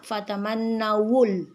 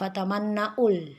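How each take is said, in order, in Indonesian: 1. Bunyi w yang jelas terdengar sebelum 'ul' di akhir. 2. Tidak ada bunyi w sebelum 'ul' di akhir. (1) "Jadi terbaca harusnya fatamannawul" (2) "Jangan dibaca fatamannaul"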